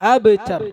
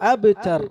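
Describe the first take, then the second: Both takes have the same delivery.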